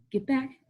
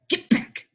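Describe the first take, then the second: First: Soft, held-in order; quiet warning before it hardens; restrained command. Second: Voiceless, forceful hissed order; harsh command. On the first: Teacher warning kids to step back, restrained command. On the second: Teacher repeating order to kids, harsh hiss. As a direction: push it out hard without voice. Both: Acted.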